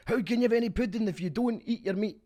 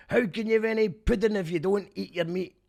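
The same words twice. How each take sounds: First: High, loud mock-Scottish shout; English take on Scottish. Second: Put-on high, loud shout in a genuine Scottish accent; actual Scottish accent. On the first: Showing how the band does it, English-person's Scottish accent. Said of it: "imagining an English person doing an impression of a Scottish guy". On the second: Excited for an actual Scottish person's take, loud Scottish accent. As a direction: holler it like a real Scot. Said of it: "an actual Scottish person going".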